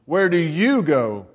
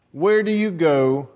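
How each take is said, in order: First: "you" leaned on, slow and drawn out; slow, weight the word "you" in "Where do you go"; stress on you. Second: Said in the usual way. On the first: Shown as a demonstration. Preacher asks the church where they go, leaning on "you". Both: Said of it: "Let me change the emphasis on that syllable".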